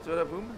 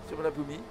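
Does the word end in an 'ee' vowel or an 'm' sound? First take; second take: m sound; ee vowel. First: The word ends on an 'm' sound. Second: The word ends with an audible 'ee' vowel. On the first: The speaker calls it right. "Mais on le prononce pas" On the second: The speaker calls it wrong. "Mais avec un I à la fin même"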